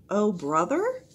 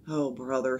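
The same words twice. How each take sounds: First: Higher, questioning repeat; puzzled echo. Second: Lower, understated uneasy aside; nervous. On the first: Priscilla repeats Jack's odd phrase, puzzled. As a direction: lift "brother" into a baffled question. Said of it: "repeated Priscilla". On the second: Jack covers for his sister, mildly nervous. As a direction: say it with mild nerves. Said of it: "with a nervous laugh". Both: A narrator's reading.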